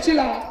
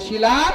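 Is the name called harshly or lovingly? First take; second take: lovingly; harshly. First: The name is called out in a loving tone. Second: The name is called out in a harsh tone. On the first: The speaker calls it right. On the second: The speaker calls it wrong.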